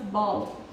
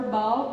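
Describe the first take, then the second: First: "ball" with a clear Indian-accent final l; tongue tip up for the l of "ball". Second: Said in the usual way. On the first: Shown as a demonstration. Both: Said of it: "pronunciation of L".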